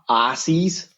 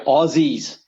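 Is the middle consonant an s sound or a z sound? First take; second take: s sound; z sound. First: The middle consonant is an s sound. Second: The middle consonant is a z sound. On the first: The speaker calls it wrong. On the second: The speaker calls it right. "Spell it with a Z"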